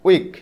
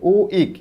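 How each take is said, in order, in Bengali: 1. শব্দটি এক টানে, মসৃণভাবে বলা হয়। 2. শব্দটি দুটি আলাদা অংশে ভাগ হয়ে বলা হয়। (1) "উইক উচ্চারণ করতেছি আমরা একবারে" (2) "এভাবে না"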